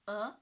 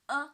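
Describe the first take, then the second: First: The pitch rises from mid to high. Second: The pitch stays high and level. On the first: "The second tone. Yes. From three to five" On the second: "The first tone"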